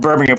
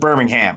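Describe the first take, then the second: First: It is said with an English accent. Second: It is said with an American, Alabama-style accent.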